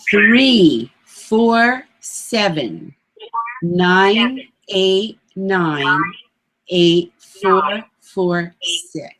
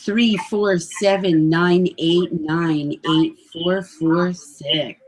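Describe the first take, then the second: First: The number is read very slowly. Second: The number is read at a normal pace.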